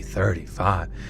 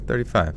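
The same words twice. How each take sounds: First: It is said with exaggerated dread and drama. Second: It is said flatly, in a matter-of-fact way. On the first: Age is a terrible doom. The speaker calls it wrong. "You don't say like" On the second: Age is nothing to worry about. The speaker calls it right. "you say it very casually"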